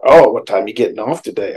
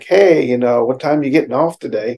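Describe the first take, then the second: First: Mildly put-out question, loud opening "Oh"; bad-mood reading. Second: Friendly, upbeat casual question; kind and happy. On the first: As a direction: ask it as if taking offense. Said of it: "If they're in a bad mood". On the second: Acted. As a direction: ask it happily, looking forward to seeing them. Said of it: "laughing and kind and happy".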